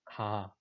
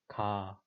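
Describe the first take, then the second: Both takes have the same delivery.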